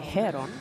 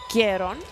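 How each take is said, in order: First: The name begins with an H sound. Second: The name begins with a hard G sound. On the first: This is how British speakers would say it. "it's spelt with a H. So the British would say Heron" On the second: This is how the player's own country says it. "I think the Ukraine pronounce it Geron"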